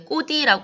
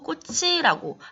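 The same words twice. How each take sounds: First: The middle consonant is a d sound. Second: The middle consonant is a ch sound. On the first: The speaker calls it wrong. "우리 꽃이라고 하지 않고" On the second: The speaker calls it right. "받침 발음을 그대로 유지해주고 있어요"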